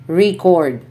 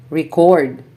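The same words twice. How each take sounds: First: REcord, stressed on the first syllable, said REE-cord; long strong RE in Record; Record as a noun, RE strong. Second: ReCORD, stressed on the second syllable; short re, strong CORD in record; record as a verb, CORD strong. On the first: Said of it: "nouns are stressed on the first syllable". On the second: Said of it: "verbs are stressed on the second syllable". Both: Shown as a demonstration.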